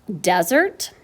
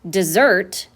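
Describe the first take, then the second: First: The stress is on the first syllable. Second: The stress is on the second syllable. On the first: It names a dry area of land. "a very dry area of land with little rain and not many plants. That would be a noun" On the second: It means to leave or abandon. "would be to leave or to abandon. That would be a verb"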